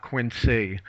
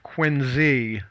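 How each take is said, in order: First: "Quincy" said slowly as QUIN-see; rejected S pronunciation. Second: "Quincy" said slowly as QUIN-zee; historical Z pronunciation. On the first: Local contrasts the mistaken form for co-hosts, "Quincy" slowly as QUIN-see. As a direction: say "Quincy" with a voiceless s before the final ee. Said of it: "not Quincy". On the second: Local cites the old family pronunciation, "Quincy" slowly as QUIN-zee. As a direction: say "Quincy" with a voiced z before the final ee. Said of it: "It was pronounced Quincy". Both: Shown as a demonstration.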